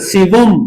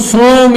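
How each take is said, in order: First: It is two syllables with a v, 'siwum'. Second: It is one short syllable, 'som'. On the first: The speaker calls it right. "सिवम, लेर जबर लगा ले" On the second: The speaker calls it wrong. "इसको सोम ... नहीं पढ़ना"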